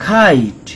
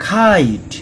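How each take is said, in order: No difference in how they are said.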